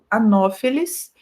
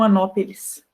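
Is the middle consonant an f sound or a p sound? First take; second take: f sound; p sound. First: The middle consonant is pronounced as f. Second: The middle consonant is pronounced as p. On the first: The speaker calls it right. "se pronuncia como se fosse F" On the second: The speaker calls it wrong. "não anópeles"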